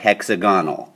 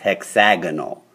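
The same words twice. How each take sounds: First: The vowel after the x is a weak 'uh'. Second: The vowel after the x is a full 'a'. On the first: The speaker calls it wrong. "don't say hexagonal. That's wrong" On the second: The speaker calls it right. "The uh changed to an a"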